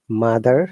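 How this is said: The final R sound is pronounced. "if you want to pronounce these words in American English"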